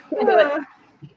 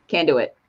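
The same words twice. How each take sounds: First: "Can't do it" stretched slowly and higher; drawn-out high. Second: Said in the usual way. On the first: Shown as a demonstration. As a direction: draw out "Can't do it" in high exasperation.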